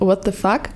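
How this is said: It is pronounced with an English accent. "statt dem englischen What the fuck"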